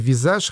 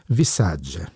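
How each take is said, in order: First: The name ends in a soft 'zh' sound. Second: The name ends in a 'dzheh' syllable. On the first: "я думаю, что читается «Визаж»" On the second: "по-итальянски было бы правильно сказать «Висадже»"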